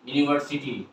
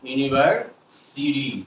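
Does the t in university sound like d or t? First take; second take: t; d. First: The t is said as a clear t. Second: The t is said like a soft d. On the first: The speaker calls it wrong. "আমরা বলি না ইউনিভার্সিটি" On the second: The speaker calls it right. "সিডি কেন বলবো?"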